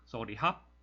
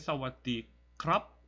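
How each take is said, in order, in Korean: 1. 마지막 단어는 h 소리로 시작합니다. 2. 마지막 단어는 kr 자음군으로 시작합니다. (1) "좀 빨리 발음하면 그냥 sorry 합" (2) "이렇게 해야지 정석적이고"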